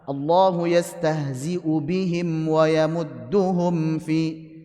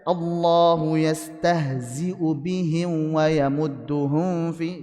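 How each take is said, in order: First: The m sounds are pronounced clearly and fully. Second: The m sounds are hidden and blurred with nasality. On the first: The speaker calls it right. "Ini contoh izhar" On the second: The speaker calls it wrong. "jangan sampai dibaca ... Jangan sampai ikhfa"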